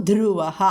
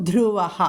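Both takes have the same delivery.

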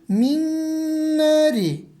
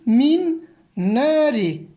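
First: The n sounds merge into one held nasal. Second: The two n sounds are said separately. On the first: "şeklinde telaffuz edeceğiz" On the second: "şeklinde yazılan kelimeyi"

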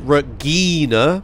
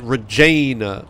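First: The middle consonant is a hard G sound. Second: The middle consonant is a soft J sound. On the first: "with a G" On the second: "with a J"

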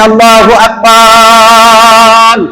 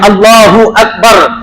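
First: The last vowel of Akbar is drawn out. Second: The last vowel of Akbar is short. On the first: There are many gods. The speaker calls it wrong. "তা না করে মুয়াজ্জিন বলছে আল্লাহু আকবার" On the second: God is the greatest. The speaker calls it right. "এই শব্দ এইভাবে বলতে হবে"

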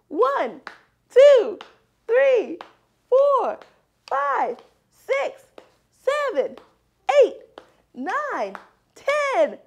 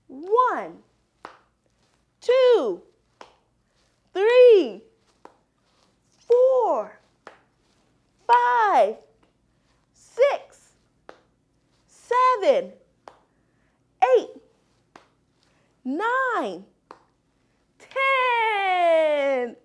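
First: The counting is faster. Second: The counting is slower.

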